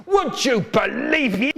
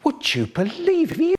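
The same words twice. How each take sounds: First: High shout. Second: "Would you believe it?" pushed very high, rising on "it"; even higher repeat. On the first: Shouted catchphrase, then "Yes, again. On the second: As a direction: go higher still on the retake. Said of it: "Yes, again". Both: Acted.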